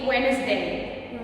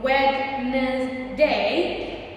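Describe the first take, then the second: First: The d sound is silent. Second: The d sound is pronounced. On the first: The speaker calls it right. "the correct way to say it actually Wednesday" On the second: The speaker calls it wrong. "A lot of people still say Wednesday"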